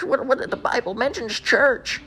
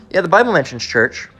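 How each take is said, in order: First: High, soft, drawn-out protest; mock churchgoer's objection. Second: Said in the usual way. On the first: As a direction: imitate a flustered believer, slow and high. Mocks churchgoer's objection, then answers it.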